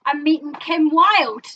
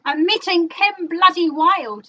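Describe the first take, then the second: First: Slow, loud, drawn-out boast; proud announcement. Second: Louder, higher, slower brag with Bloody; milk the brag even more; bigger boast. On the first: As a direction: savour each word of the news. Announcing big news proudly. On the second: Repeating news with more emphasis. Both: Real, not acted.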